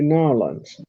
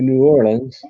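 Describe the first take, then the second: First: It is said the southern way, two syllables. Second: It is said the Mid-South way.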